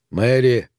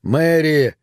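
First: Restrained call into the void; moderately voiced call. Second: Raised, higher-pitched call; desperate cry into the dark. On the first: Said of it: "позвал он". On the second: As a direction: call her name out urgently. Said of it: "ещё раз закричал он". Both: A narrator's reading.

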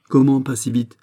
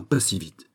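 First: Higher, louder echoing question; indignant surprise. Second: Smiling reassurance. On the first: Acted. Fouquet challenges Aramis's reassurance, indignantly surprised. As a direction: throw the phrase back, taken aback. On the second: A narrator's reading. Aramis calms the despairing Fouquet, smiling. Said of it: "fit Aramis en souriant".

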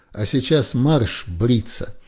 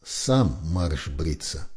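First: Марш бриться ordered loud, slow and high; barked order. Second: "Сам марш бриться" low, very slow and deliberate; distinctly spoken. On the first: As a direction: snap out "марш бриться" as a command. Officer's order. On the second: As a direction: lay out each word of "Сам марш бриться" with cold calm. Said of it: "отчётливо выговорил Яки". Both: A narrator's reading.

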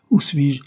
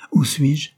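First: Répéter tout effaré, au réveil. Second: Cri soudain. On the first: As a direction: question répétée, haute et soufflée. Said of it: "d'un air effaré". (effarement, voix haute au souffle marqué) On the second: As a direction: question lancée haut et fort. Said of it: "cria une voix qui les fit tressaillir". (cri égaré, voix haute et forte) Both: A narrator's reading.

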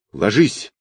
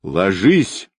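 First: Short, mild narrated cry; cried-out warning. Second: Understated roar, longer and drawn out; roared warning. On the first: Wolverine warns the group under fire, short restrained cry. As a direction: call a quick warning, only lightly raised. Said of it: "выкрикнула Росомаха". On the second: Kvadrat orders everyone down under fire, drawn-out understated roar. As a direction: stretch the warning into a restrained roar. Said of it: "взревел Квадрат". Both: A narrator's reading.

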